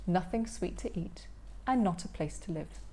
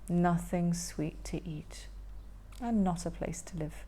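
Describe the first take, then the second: First: Said in the usual way. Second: Whispered lament. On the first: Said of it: "repeated line". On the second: Acted. Hungry troll repeating the line, whispered lament. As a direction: whisper it sadly. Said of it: "repeated whispered".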